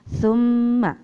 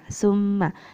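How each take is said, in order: First: The word begins with a 'th' sound. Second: The word begins with an 's' sound. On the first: The speaker calls it right. "Besok membacanya" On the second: The speaker calls it wrong. "melafalkan lafaz sa dengan bunyi sa"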